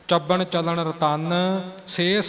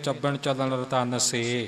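First: The phrase runs on without a pause after 'se'. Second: The phrase stops with a pause after 'se'. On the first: The speaker calls it right. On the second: The speaker calls it wrong.

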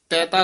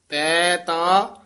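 First: The two words are run together. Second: The two words are drawn out and separated.

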